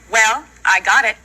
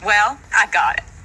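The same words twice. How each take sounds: First: It is said excitedly, with more energy. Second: It is said calmly, with little energy.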